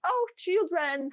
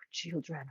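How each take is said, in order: First: High, slow, sing-song hello; delighted greeting. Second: Burnt-out weariness. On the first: Greeting kids on the road, a high slow delighted voice. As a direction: gush over the kids like a happy aunt. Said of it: "normally when I see kids". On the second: Burnt out after five months, greeting kids with weary dread. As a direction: say it as if utterly drained. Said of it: "fifth month when I'm about, about to burn out". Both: Retold or imitated.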